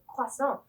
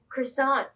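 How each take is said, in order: First: It is pronounced the French way. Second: It is pronounced the English way.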